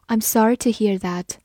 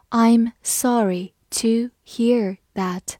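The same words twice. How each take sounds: First: Said in the usual way. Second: Very slow, every word stretched; slow teacher demo of a sympathetic reply; slow reading. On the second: Shown as a demonstration. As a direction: model it slowly for the class. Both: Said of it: "我们把这两句话慢读一遍".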